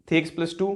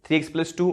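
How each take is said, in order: Both takes have the same delivery.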